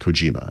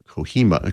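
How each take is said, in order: First: The name is said with English-style sounds. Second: The name is said with Spanish-style sounds. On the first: The speaker calls it right. "I guess we would say" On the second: The speaker calls it wrong. "that's my Spanish pronunciation there"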